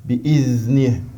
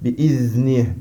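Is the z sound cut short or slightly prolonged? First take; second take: prolonged; prolonged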